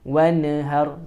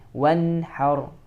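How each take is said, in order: First: The n sound is released with a bounce. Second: The n sound is held without any bounce. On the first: The speaker calls it wrong. "Jangan wanhar. Ya, jangan seperti itu" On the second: The speaker calls it right. "tapi wanhar"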